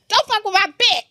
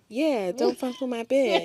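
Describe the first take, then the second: First: It is said loudly, with force. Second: It is said weakly, without force.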